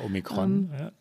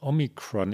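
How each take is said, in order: First: The word is said with a German pronunciation. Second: The word is said with an American pronunciation. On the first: "Mit K" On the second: "ich spreche es schon amerikanisch aus"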